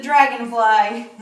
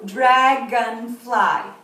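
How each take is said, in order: First: Said in the usual way. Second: "Dragonfly" slow and loud in three beats, Dra, gon, fly; "Dragonfly" broken into three drawn-out syllables. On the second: Shown as a demonstration. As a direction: count out "Dragonfly" one strong syllable at a time. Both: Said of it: "name the insect and count the syllables".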